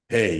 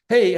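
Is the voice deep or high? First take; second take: deep; high. First: The voice is deep, from the chest. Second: The voice is high, from the throat. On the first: The speaker sounds self-assured. The speaker calls it right. "The voice has to come from the gut" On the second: The speaker sounds weak and nervous. The speaker calls it wrong. "if you do it from up here"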